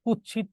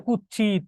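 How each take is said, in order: First: Said in the usual way. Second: কুৎসিত softened to kuch-chit; colloquial distorted pronunciation. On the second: Shown as a demonstration. Teacher showing students an altered Sanskrit word, কুৎসিত as kuch-chit. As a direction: merge the ts of কুৎসিত into a doubled ch. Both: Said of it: "উচ্চারণ হচ্ছে বিকৃত উচ্চারণ".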